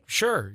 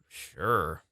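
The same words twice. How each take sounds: First: It sounds passive and indifferent. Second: It sounds reluctant and unwilling.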